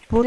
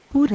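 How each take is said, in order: First: "Por" said with a closed o, as the verb pôr; "Por" with a clear closed o; "Por" pronounced as the verb pôr. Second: "Por" said with a reduced o near u, as the preposition; "Por" unstressed-sounding, o close to u; "Por" pronounced as the preposition. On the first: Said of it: "Por é verbo". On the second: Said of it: "Por é preposição". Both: Shown as a demonstration.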